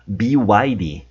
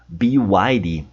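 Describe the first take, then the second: The two takes are said the same way.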